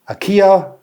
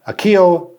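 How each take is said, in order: No difference in how they are said.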